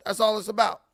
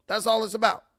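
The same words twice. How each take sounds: The two takes are said the same way.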